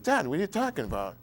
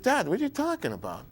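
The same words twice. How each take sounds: First: Said in the usual way. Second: High, disbelieving "Dad, what are you talking about?"; retelling a stunned reply to his father; shocked question. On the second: Retold or imitated. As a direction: ask it in alarmed disbelief, pitched up.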